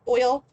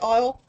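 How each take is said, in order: First: It is said in a New York accent. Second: It is said in a Southern US accent. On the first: "Now I'm like sounding it out with a New York accent" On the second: "in the Deep South they say oil"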